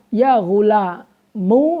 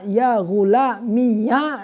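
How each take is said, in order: First: The word ends in a u vowel. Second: The word ends in an added ya syllable. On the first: "dengan dibaca domah" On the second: "dengan dibaca ya yang difathahkan"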